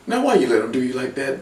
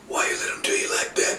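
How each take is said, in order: First: Said in the usual way. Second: Softer breathy repeat of the taunt; whispered taunt. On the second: Acted. Taunting Big E a second time, whispered.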